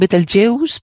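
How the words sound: It is pronounced the English way. "En inglés se llaman Betelgeuse"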